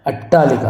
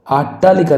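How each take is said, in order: First: अट्टालिका starting on short "a"; correct short first vowel. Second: अट्टालिका starting on long "aa"; wrong long first vowel. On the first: Teacher gives the correct अट्टालिका, short opening "a". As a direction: say अट्टालिका as "attaalika". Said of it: "अट्टालिका होगा". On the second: Teacher rejects this अट्टालिका, long opening "aa". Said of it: "ये डंडा नहीं लगेगा". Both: Shown as a demonstration.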